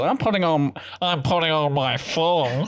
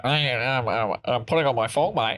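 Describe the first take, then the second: First: Put-on Australian accent. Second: Lightly exaggerated watery Australian accent; Australian accent as if on the water. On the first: Australian announcing the thong is going on, mock Australian accent. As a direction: put on a broad Australian twang. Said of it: "So when Australian goes". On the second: Repeating it after the underwater remark, wobbly mock Australian accent. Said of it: "Sounds like they're on the, on the water".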